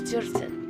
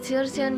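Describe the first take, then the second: First: The stress is on the second syllable. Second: The stress is on the first syllable. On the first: "in back, she is thirteen" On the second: "first, a thirteen years old"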